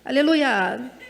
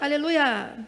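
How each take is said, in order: The two takes are said the same way.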